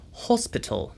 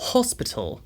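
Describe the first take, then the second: Both takes have the same delivery.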